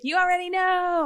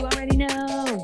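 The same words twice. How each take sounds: First: It is said with more energy. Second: It is said with little energy.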